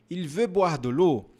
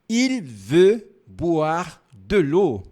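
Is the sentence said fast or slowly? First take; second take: fast; slowly. First: It is said at a quick pace. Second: It is said at a slow pace. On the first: "Um pouquinho rápido" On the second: "Vamos mais devagar"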